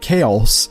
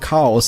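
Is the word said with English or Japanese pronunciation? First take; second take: English; Japanese. First: It is said with English pronunciation. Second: It is said with Japanese katakana pronunciation. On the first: The speaker calls it wrong. "I said chaos" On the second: The speaker calls it right. "instead of saying chaos"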